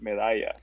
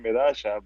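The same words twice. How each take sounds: First: The double L is said as a Y sound. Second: The double L is said the Argentine way. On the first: "two L's uh, amount to a Y sound" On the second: "in Argentina they say medalla"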